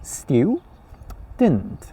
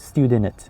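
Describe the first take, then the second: First: The consonants are said together without vowel. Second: An extra vowel splits the consonants. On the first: The speaker calls it right. "You should say student" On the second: The speaker calls it wrong. "You cannot say student"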